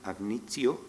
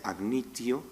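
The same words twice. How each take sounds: No difference in how they are said.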